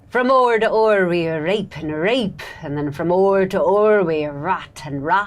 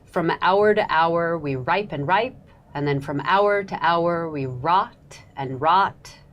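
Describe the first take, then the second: First: It is said in an Elizabethan accent. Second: It is said in a modern accent.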